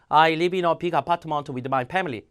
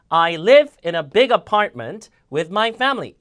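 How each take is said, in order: First: Every word gets the same flat weight. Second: The nouns, verbs and adjectives are stressed. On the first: The speaker calls it wrong. "이렇게 읽는 건 영어로 인지 자체를 못해요" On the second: The speaker calls it right. "강세를 명사, 동사, 형용사, 부사 줘야 되거든요"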